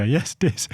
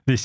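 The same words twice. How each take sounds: First: "dis" with d, higher; "dis" again, cheerful; imitating the boy. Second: Teacher correcting "this". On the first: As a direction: still says "dis". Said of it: "He'd go". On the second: Shown as a demonstration. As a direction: patiently model "this". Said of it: "And I'd go".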